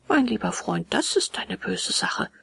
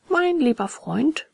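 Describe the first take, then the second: First: Mildly sad, sinking at the end; traurig. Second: Slow, higher, lilting reassurance; calm a friend down, taking your time; soothing. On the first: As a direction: break bad news gently. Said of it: "sagte traurig". (leicht traurig) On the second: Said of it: "beruhigte ihn das Murmeltierchen". (beruhigend, langsam gedehnt) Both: A narrator's reading.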